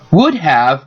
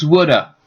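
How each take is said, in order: First: Both words are said fully and separately. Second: The words blend into one reduced word.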